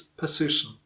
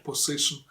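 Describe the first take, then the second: First: "position" as puh-ZISH-un; reduced first vowel. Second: "position" starting with a full poh. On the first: Teacher gives correct form, "position" starting puh. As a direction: weaken the O of "position" to schwa. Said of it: "it's position". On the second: Teacher shows the mistake, "position" said with poh. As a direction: sound the O fully in "position". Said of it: "It's not position". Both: Shown as a demonstration.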